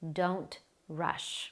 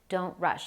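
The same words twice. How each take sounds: First: It is spoken at a normal, unhurried pace. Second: It is spoken very quickly and rushed. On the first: The speaker calls it right. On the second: The speaker calls it wrong.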